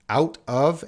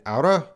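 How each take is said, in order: First: Both words are said fully and separately. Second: The words are reduced and run together. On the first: "Out of and outa. It's the same word" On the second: "the second one, outa"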